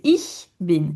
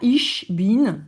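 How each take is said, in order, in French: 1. Le ch est un son sifflant plus doux. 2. Le ch se prononce comme un sh français. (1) "c'est ich bin" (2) "C'est pas ich bin"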